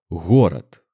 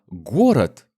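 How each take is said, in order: First: The first consonant is a soft breathy h-like sound. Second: The first consonant is a hard plosive g. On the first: This is the Belarusian pronunciation. "мягким, воздушным, очень похожим на английский звук в слове home" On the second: This is the standard Russian pronunciation. "этот звук твердый и взрывной"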